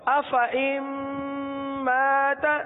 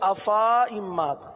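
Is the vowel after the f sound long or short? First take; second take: short; long. First: The vowel after the f is kept short. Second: The vowel after the f is drawn out long. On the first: The speaker calls it right. "لیکن چونکہ گول دائرے کا نشان لگا ہوا ہے تو اب کس طرح پڑھیں گے؟" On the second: The speaker calls it wrong. "اگر گول دائرے کا نشان نہ ہوتا تو ہم پڑھتے"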